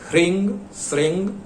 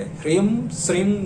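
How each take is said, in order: First: The words end with a nasal 'ng' sound. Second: The words end with a closed 'm' sound. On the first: The speaker calls it right. "यह उच्चारण करेंगे" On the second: The speaker calls it wrong. "मत कीजिएगा"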